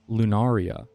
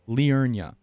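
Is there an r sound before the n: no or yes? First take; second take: no; yes. First: It is said loo-NAR-ee-a, with no r before n. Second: It is said lee-UR-nee-a, with r before n. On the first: The speaker calls it wrong. "Not Lunaria" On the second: The speaker calls it right. "It's L I U R N I A"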